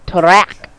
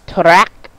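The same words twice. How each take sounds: No difference in how they are said.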